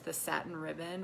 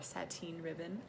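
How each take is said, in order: First: The first word is said the plain, ordinary way. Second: The first word is said the fancy way.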